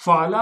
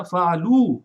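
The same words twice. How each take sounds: First: Said in the usual way. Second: فعلو with the last vowel pulled out into a long o; drawn-out final o. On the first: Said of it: "جیسے ہی آپ نے sound اس کا بڑھایا". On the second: Shown as a demonstration. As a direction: stretch the final o of فعلو and say it louder. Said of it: "آخر والے کو او کی آواز کی طرف کھینچ دیا". (فعلو کی آخری آواز کو کھینچ کر لمبا او بنائیں)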